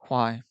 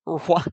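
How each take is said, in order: First: The word starts cleanly with a W sound. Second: An R-like sound comes before the word. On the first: The speaker calls it right. "I say why" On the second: The speaker calls it wrong. "I don't say er, er why?"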